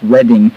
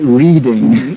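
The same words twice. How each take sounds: First: It sounds different from the everyday word reading. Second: It sounds like the everyday word reading. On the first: The speaker calls it right. "but it's pronounced Reading" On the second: The speaker calls it wrong. "It looks like reading"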